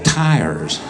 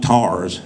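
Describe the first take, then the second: First: It is said with a standard pronunciation. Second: It is said with a local regional pronunciation. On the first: "they're tires" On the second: "are not tars"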